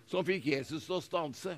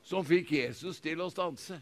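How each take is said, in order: Both takes have the same delivery.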